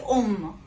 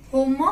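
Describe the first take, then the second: First: "om" starting straight on the vowel, no H; silent H. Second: "home" with the H sounded at the start; wrong H pronounced. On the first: Teacher shows learners the French word for man, silent H in "om". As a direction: say "om" slowly, dropping the initial H. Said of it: "You will not say home". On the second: Teacher shows learners what not to say, wrong H in "home". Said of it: "You will not say". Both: Shown as a demonstration.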